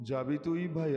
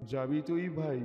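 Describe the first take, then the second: No difference in how they are said.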